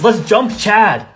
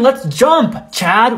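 First: It runs on with no pause before Chad. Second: There is a pause before Chad.

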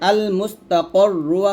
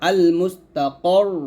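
First: The word ends with a final vowel. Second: The word ends on a doubled consonant. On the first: "আল মুস্তাকর রু আছে" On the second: "থামলে হবে আল মুস্তাকর"

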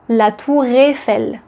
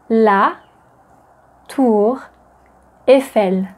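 First: Tour runs smoothly into Eiffel without a break. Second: Tour and Eiffel are said as separate words. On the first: The speaker calls it right. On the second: The speaker calls it wrong.

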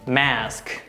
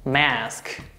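First: It is said with American pronunciation. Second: It is said with American pronunciation.

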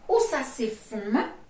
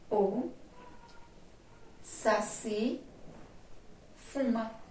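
First: The pitch rises at the end like a question. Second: The pitch falls at the end like a statement. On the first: It asks a question. "Aí o tom da minha frase seria: ... Um tom de pergunta" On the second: It states a fact. "Porque eu estou afirmando"

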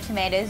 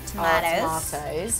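First: It is said with an American pronunciation. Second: It is said with a British pronunciation.

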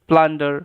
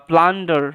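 No difference in how they are said.

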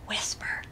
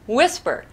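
First: It is spoken in a whisper. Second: It is spoken in a normal voice. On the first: The speaker calls it right. "No, like this" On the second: The speaker calls it wrong. "Many children will respond by saying"

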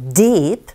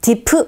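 First: The vowel is long and stressed. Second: The vowel is short and unstressed. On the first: The speaker calls it right. "길게 또 강세 주면서 deep" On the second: The speaker calls it wrong. "deep 아니고"

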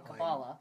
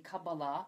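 First: The stress is on the first syllable. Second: The stress is on the final syllable. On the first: The speaker calls it wrong. "I've always pronounced it what is apparently the wrong way" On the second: The speaker calls it right. "and that's how you pronounce it, right?"

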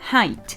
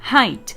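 First: The vowel sounds like 'eye' as in 'high'. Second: The same.

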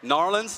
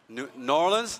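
First: The name is squeezed into two quick syllables. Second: The name is said in full, syllable by syllable.

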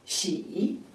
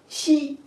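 First: The pitch dips low then rises. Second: The pitch stays high and level. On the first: "三声" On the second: "一声"

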